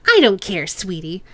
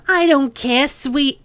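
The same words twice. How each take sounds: First: Put-on Chang's own accent. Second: Put-on sing-song, louder, the wrong accent creeping in; Chang's line drifting into the cop's accent; slipping into Duncan's accent. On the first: Boss Chang brushing off the cop, nasal accent. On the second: Boss Chang brushing off the cop, slipped into his accent. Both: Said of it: "why is she picking up his accent".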